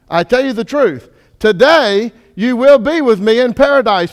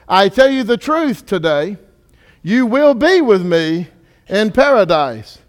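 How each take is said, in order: First: The pause comes before "today". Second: The pause comes after "today".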